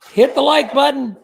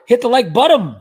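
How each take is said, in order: First: Said in the usual way. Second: High, loud call with BUTTON ending in an m; mock announcement, BUTTON turned into "buttom". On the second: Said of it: "he said".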